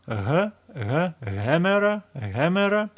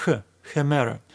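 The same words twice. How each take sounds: First: "H" and "hemera" with a heavy h from deep in the lungs; deeper h sound. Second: "hemera" with a light, soft h; softer h sound. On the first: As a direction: push out the h of "hemera" from the depth of the lungs. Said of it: "Some people prefer deeper pronunciation". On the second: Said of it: "more softer pronunciation like". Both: Shown as a demonstration.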